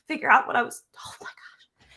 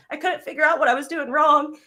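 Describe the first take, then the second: First: Breath-only whisper, choked up; words collapse into a tearful whisper; fighting tears. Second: Higher and louder, forcing the words out through emotion; tearful but regaining her voice; pushing through tears. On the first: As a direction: near tears, voice fails to a whisper. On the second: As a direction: near tears, thanking her mentor. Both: Real, not acted. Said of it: "I'm trying not to cry".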